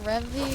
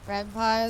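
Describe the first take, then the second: First: The second syllable ends like 'pee'. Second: The second syllable ends like 'pie'. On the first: "I always pronounce it Rempi" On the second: "is pronounced like senpai because of Python"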